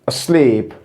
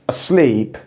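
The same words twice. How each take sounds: Both takes have the same delivery.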